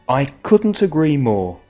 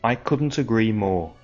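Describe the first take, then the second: First: It is said expressively, with lively pitch movement. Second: It is said flatly, with little pitch movement.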